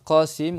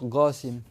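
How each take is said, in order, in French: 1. Le nom se prononce avec la prononciation de l'arabe standard. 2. Le nom se prononce avec la prononciation yéménite.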